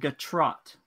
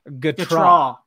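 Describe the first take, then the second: First: The final T sound is pronounced. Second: The final T sound is silent. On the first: The speaker calls it wrong. "Cause I've been pronouncing it wrong this whole time" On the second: The speaker calls it right. "The T is silent"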